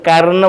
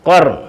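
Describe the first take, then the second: First: The first consonant is light and plain. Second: The first consonant is full and heavy. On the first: The speaker calls it wrong. "വെറും കർന്ന് പറയരുത്" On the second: The speaker calls it right. "പറയേണ്ടത് ഖർ ... full volume"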